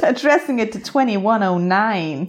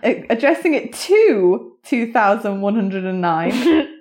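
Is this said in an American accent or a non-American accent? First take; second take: American; non-American. First: It is said in a put-on American accent. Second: It is said in the speaker's own non-American accent.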